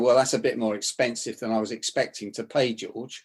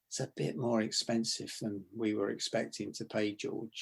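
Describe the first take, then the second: First: The voice is louder, harder and not dropped. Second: The voice is soft, low and slow.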